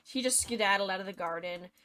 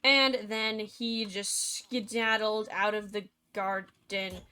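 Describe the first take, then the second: First: Quick version. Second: Slow version. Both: Shown as a demonstration.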